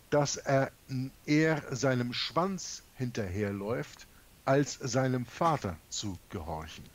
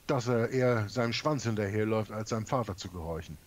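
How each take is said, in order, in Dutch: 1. De zin wordt langzamer uitgesproken. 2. De zin wordt in een normaal, vlot tempo uitgesproken.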